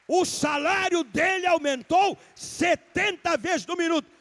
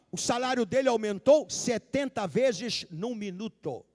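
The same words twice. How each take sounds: First: "O salário dele aumentou setenta vezes" mais alto, mais agudo e bem lento, cada palavra marcada; repetido com ênfase. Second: Said in the usual way. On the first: Shown as a demonstration. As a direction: martele devagar o "setenta vezes no minuto" para a igreja. (pregador repete a frase à igreja, lento e enfático) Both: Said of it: "Eu vou repetir".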